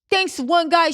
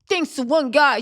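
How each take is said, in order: First: It is read in a high, squeaky, chipmunk-like voice. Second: It is read in a normal speaking voice.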